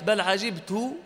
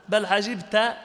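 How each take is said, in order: First: "عجبت" ending in -tu, with a u vowel; damma on the ta. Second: "عجبت" ending in -ta, with an a vowel; fatha on the ta. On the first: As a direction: say "عجبت" as ʿajibtu, final ta rounded. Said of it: "وبضم التاء". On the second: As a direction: say "عجبت" as ʿajibta, final ta open. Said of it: "بفتح التاء". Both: Shown as a demonstration.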